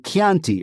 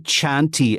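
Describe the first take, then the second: First: It begins with a k sound. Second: It begins with a ch sound. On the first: The speaker calls it right. "as we do in Italian" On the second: The speaker calls it wrong. "we don't say Chianti anymore"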